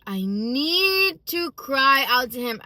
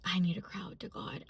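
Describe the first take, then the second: First: "need" stretched out high and loud; slow, louder plea leaning hard on "need"; emphatic insistence. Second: Hushed admission. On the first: Woman insisting she must cry out to God, emphatic. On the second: Woman admitting to herself she needs God, hushed. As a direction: say it quickly under the breath, quietly. Retold inner need, then repeated louder. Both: Retold or imitated.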